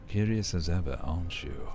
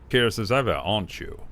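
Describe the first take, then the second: First: Deep voice. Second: Louder, brighter take of the same line; character voice. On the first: Trying a deep voice on the curious character. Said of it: "like, a deep, deep voice". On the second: Retrying the line while looking at his face. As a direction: lift the start, then drop. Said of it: "let's look at his face". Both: Acted.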